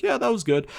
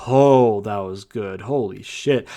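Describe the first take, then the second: First: Unimpressed shrug. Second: Impressed. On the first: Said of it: "you're gonna be like". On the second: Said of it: "then you're like". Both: Retold or imitated.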